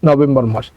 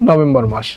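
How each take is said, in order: The two takes are said the same way.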